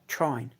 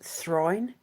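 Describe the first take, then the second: First: The word begins with a plain t sound. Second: The word begins with a breathy th sound. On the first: This is the later, common form of the word. "they dropped the H because they started pronouncing it trine" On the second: This is the original form of the word. "technically it's thrine"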